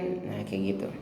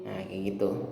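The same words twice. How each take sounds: No difference in how they are said.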